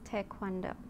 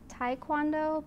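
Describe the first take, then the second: First: The word is pronounced closer to the Korean way. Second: The word is pronounced the common anglicized way. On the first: The speaker calls it right. "the appropriate pronunciation is Taekwondo" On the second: The speaker calls it wrong. "a lot of people pronounce it Taekwondo"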